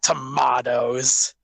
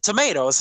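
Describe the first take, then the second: First: The word is said with an English pronunciation. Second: The word is said with an American pronunciation. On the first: The speaker calls it wrong. "You English man" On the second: The speaker calls it right. "tomatoes, not tomatoes"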